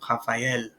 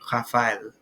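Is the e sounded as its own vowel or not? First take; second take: separate; not separate. First: The e is sounded as its own vowel. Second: The a and e merge with no separate e. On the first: The speaker calls it right. "but it's" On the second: The speaker calls it wrong. "without the tréma, it would be"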